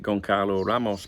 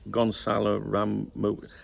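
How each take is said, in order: First: The first name sounds like Goncalo. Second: The first name sounds like Gonzalo. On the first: The speaker calls it wrong. "I would have pronounced it Goncalo Ramos, but apparently it's not" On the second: The speaker calls it right. "It's Gonzalo Ramos"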